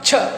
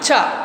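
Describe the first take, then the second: First: The sound slides out from a t-like stop. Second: The sound has no t-like stop at the start. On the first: The speaker calls it right. "టా నుంచి జారి ఛ ఛ" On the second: The speaker calls it wrong. "Not చ"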